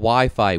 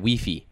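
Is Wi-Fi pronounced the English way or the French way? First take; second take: English; French. First: Wi-Fi is said with English vowel sounds. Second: Wi-Fi is said with French vowel sounds.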